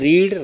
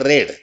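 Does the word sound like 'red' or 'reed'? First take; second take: reed; red. First: The vowel is long, like 'reed'. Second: The vowel is short, like 'red'. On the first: It is the present form. "फक्त उच्चारामध्ये बदल आहे" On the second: It is the past participle form. "फक्त उच्चारामध्ये बदल आहे"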